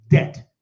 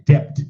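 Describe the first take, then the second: First: The B is silent in the word. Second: The B sound is pronounced in the word. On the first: The speaker calls it right. "It's pronounced as D E T" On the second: The speaker calls it wrong. "Don't ever say debt"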